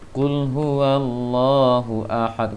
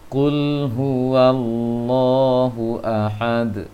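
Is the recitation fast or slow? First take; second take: fast; slow. First: It is recited quickly, with the doubled consonant rushed. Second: It is recited slowly, with the doubled consonant held. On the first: The speaker calls it wrong. "kurang rasa" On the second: The speaker calls it right. "Dipelankan bacaan sedikit sehingga terasa tasydidnya"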